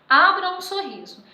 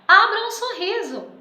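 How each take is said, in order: First: It is said as a calm, plain statement. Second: It is said as an emotional exclamation.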